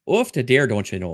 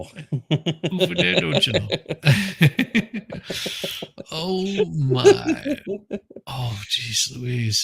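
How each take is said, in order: First: Light Minnesotan "off the dare, don't you know"; Minnesotan accent. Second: Slow Minnesotan "off the dare", laughing at the end; Minnesotan accent. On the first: Streamer showing off his Minnesotan accent for the chat. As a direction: lay on the Minnesota folksy accent. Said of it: "how to do a proper Minnesotan accent". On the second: Host echoing the Minnesotan accent through laughter. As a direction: drawl it out Minnesota style, cracking up. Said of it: "Minnesota accent". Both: Shown as a demonstration.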